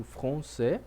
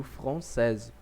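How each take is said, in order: First: Français said fron-SAY, final s silent; français ending on an open e, no s; French masculine. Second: Française said fron-SEZ, final z sounded; française closing on a clear z; French feminine. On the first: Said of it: "masculino eu digo". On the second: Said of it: "feminino eu digo". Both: Shown as a demonstration.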